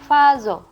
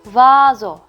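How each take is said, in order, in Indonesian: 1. Kata ini diawali dengan bunyi v. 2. Kata ini diawali dengan bunyi seperti w. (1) "Jadi bukan dibaca vazo" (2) "tapi vazo"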